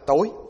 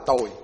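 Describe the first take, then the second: First: The word has a high rising tone. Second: The word has a low falling tone. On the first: "Rồi để dấu sắc thì nó là tối" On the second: "để cái dấu huyền nó là tôi"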